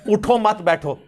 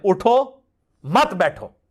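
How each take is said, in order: First: There is a pause after the second word. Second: There is a pause after the first word.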